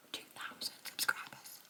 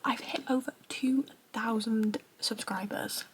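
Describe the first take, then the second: First: Drops to a stunned near-whisper; awed hush. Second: Said in the usual way. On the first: Real, not acted. To her viewers, repeating the milestone in a hushed, amazed near-whisper. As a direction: say it again under your breath, amazed.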